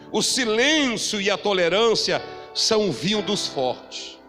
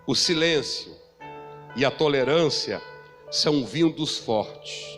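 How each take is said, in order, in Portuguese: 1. A frase é dita em ritmo normal. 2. A frase é dita devagar e pausadamente.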